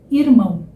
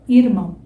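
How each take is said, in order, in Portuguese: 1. O R é articulado de forma natural e leve. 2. O R é articulado de forma natural e leve.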